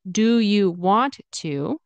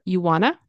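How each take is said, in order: First: "Do you want to?" with do and want to fully said; full want to. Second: "You wanna?" with want to blended into wanna; reduced wanna. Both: Shown as a demonstration. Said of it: "want to turns into wanna".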